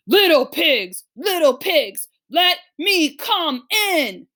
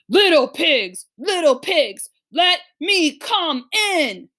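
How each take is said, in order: First: It is read in a big bad wolf voice. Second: The same.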